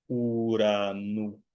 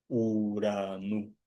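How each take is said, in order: Both takes have the same delivery.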